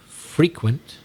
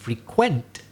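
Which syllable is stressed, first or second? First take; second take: first; second. First: The stress is on the first syllable. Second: The stress is on the second syllable. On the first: It describes something occurring regularly. "that would be an adjective" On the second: It means to visit a place regularly. "if I change the stress and say to frequent, and now it's the second syllable"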